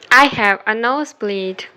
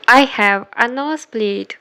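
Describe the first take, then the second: No difference in how they are said.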